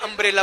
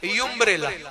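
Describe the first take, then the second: First: The word begins with a plain 'um' sound. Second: The word begins with a 'yum' sound. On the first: The speaker calls it right. "अम्ब्रेला बोलते हैं" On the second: The speaker calls it wrong. "मैंने बोला युम्ब्रेला"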